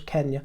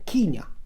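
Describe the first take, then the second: First: Kenya is said the way a Kenyan family said it. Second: Kenya is said with the colonial pronunciation. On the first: It follows how people from the country said it. "I take it as Kenya... that's how they pronounced it" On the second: It follows the fashionable colonial usage. "the colonial vogue is to call it, uh, to pronounce it Kenya"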